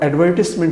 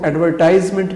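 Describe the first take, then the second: First: The third syllable has a short 'i' vowel. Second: The third syllable has an 'eye' vowel. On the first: The speaker calls it right. "इसकी दुरुस्त सूरत है" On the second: The speaker calls it wrong. "गलत होगा"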